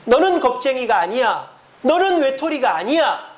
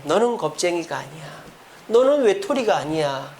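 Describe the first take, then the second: First: Rising, earnest reassurance as God; voicing God's comfort. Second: The angel's comfort. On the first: Pastor voicing God comforting the congregation, earnest reassurance. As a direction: proclaim the comfort with lifted voice. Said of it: "하나님께서 여러분들에게". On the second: Acted. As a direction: speak it gently to Elijah. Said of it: "엘리야에게".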